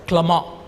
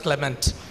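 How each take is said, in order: First: The name is said with a French pronunciation. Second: The name is said with an Indian English pronunciation. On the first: "In France, they pronounce it as uh" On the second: "But in India, we pronounce it as"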